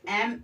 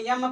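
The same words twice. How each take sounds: First: "एम" as em, vowel first; correct pronunciation. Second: "यम" with a y-glide before the M; wrong student pronunciation. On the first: Teacher showing how M should be read, correct pronunciation. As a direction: say "एम" with no y-glide. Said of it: "यहाँ पर F पढ़ा जाएगा". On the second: Teacher showing how students misread the letter M, wrong pronunciation. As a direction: say "यम" as yem, y first. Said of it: "pronunciation बच्चे करते हैं". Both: Shown as a demonstration.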